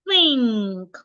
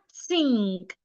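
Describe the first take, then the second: First: The word begins with a th sound. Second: The word begins with an s sound. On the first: The speaker calls it right. "put your tongue in between your teeth" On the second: The speaker calls it wrong. "an average person will say something like sink"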